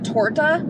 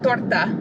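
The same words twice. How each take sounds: First: It is said with an English pronunciation. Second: It is said with a Spanish pronunciation. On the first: The speaker calls it wrong. "the very like English pronunciation" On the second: The speaker calls it right. "There you go. Did it. Perfect"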